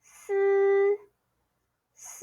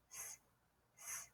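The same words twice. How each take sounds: First: "S" followed by a long buzzed vowel, held level; first tone. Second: "S" as a short voiceless hiss, as starting sun; just a brief soft "S" hiss, no vowel; isolated first sound. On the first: Teacher bringing the s sound to first tone, long level "S". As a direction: draw "S" out into a steady sustained syllable. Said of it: "Bring it to first tone". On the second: Teacher isolating the first sound of sun, short hissed "S". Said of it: "Look at the helping tip". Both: Shown as a demonstration.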